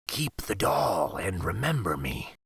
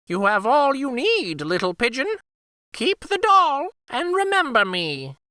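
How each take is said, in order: First: Low breathy whisper of a parting wolf. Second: Very high, fond bird voice saying goodbye; the Firebird takes leave, high and light; high Firebird farewell. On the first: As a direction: whisper it like a wolf saying goodbye. Wolf's farewell, whispered. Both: Acted.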